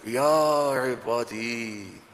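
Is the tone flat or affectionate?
affectionate. It is said in a warm, loving tone.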